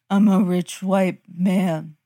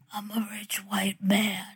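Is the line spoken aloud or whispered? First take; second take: spoken; whispered. First: The line is said in a normal voice. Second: The line is said in a whispered voice. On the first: The speaker calls it wrong. "What? Does that sound like a whisper to you?" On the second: The speaker calls it right. "There you go"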